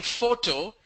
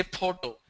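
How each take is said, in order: First: "photo" with a clear f, FOH-to; lip-on-teeth f in "photo"; correct f demo. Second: "photo" with a puffed p, POH-to; p in place of f in "photo"; imitated mispronunciation. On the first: Shown as a demonstration. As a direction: say "photo" starting on f. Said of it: "instead of saying". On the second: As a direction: say "photo" as poto. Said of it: "they say photo".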